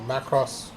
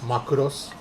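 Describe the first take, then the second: First: The name is said in an English way. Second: The name is said in a Japanese way.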